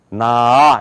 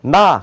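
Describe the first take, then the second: First: Long "나" opening in two stages; American throat-voiced "나"; American-style 나. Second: Short "나" in one opening; plain Korean "나"; Korean-style 나. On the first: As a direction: stretch "나" out from the throat. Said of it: "미국 사람도". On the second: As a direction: say "나" briskly at the front of the mouth. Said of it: "그렇게 안 해요". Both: Shown as a demonstration.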